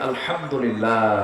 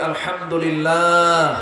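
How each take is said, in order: First: It is said at normal, softer volume. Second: It is said loudly.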